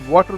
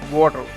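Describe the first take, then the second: First: The middle sound is a clear T. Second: The middle sound is a soft D. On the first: "water becomes" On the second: "T becomes a soft D sound there"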